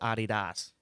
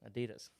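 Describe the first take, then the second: First: It is said the way people elsewhere say it. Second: It is said the way Americans say it. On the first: "like in other places, is Adidas" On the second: "We're the only weirdos that say Adidas"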